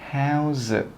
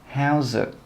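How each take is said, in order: No difference in how they are said.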